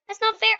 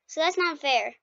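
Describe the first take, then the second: First: High whiny complaint; whiny protest. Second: Said in the usual way. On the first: Real, not acted. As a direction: whine it up high. Repeats complaint, pitched up.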